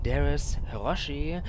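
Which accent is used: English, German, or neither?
German. It is said with a German accent. "that's too German"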